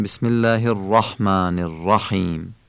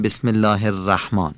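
First: "الرحمن الرحیم" with full r, long thin alef; heavy R. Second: "الرحمن" as Persian "er-ræhmaan"; thin Persian R. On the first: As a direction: say الرحمن الرحیم with thick r and short dark "a". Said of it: "مثل آ ولی کوتاه تلفظ". («الرحمن الرحیم» با رِ درشت) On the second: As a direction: say الرحمن with light r and front "æ". («الرحمن» با رِ نازک) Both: Shown as a demonstration.

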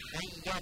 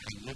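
First: حیه ending in a short open a; correct fatha ending. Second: حیه ending in e; wrong final vowel. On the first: Teacher shows the right form, hayya with fatha. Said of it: "یه فتحه داره". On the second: Teacher shows students the mistake, hayye for حیه. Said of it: "حیه درست نیست". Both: Shown as a demonstration.

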